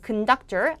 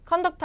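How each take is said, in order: First: The first vowel is a weak schwa. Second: The first vowel is a full vowel. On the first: The speaker calls it right. "앞에가 슈아 발음으로 뭐가 되죠? 약화돼서 큰이 되죠?" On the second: The speaker calls it wrong. "conductor 아니고"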